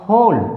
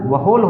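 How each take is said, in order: First: The word begins with an h sound. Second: The word begins with a w sound. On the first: The speaker calls it right. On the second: The speaker calls it wrong.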